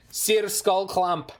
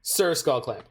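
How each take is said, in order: First: "Sir" stretched slowly into "seer", then Skull Clamp; drawn-out Sir. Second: Said in the usual way. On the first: Shown as a demonstration. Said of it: "No, no, no, M T G spelling, Sir". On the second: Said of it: "No, no, no, M T G spelling".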